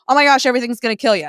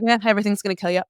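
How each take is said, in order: First: It sounds alarmed and panicked. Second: It sounds casual and dismissive.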